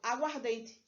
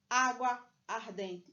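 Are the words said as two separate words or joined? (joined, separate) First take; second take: joined; separate. First: The words run together, losing the middle vowel. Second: The two words are said separately, vowels kept. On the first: The speaker calls it right. "eu falo aguardente" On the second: The speaker calls it wrong. "eu não falo água ardente"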